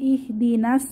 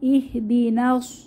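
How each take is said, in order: First: The final s sound is light and thin. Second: The final s sound is heavy and thick. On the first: The speaker calls it wrong. "এখানে ইহদিনাস বলবো না" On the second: The speaker calls it right. "নাস সোয়াদের মাখরাজ মোটা"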